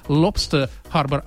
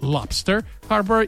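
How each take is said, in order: First: It is pronounced in a Russian-style way. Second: It is pronounced in an American English way. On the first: The speaker calls it wrong. "не Lobster Harbor" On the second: The speaker calls it right. "правильно говорить по-английски"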